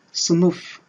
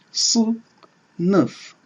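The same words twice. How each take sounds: First: Said in the usual way. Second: "sınıf" in two separate syllables, long pause between; split into syllables. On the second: Shown as a demonstration. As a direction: break "sınıf" slowly apart, syllable by syllable. (« sınıf » détaché syllabe par syllabe) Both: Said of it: "Si nous voulons le subdiviser en syllabes".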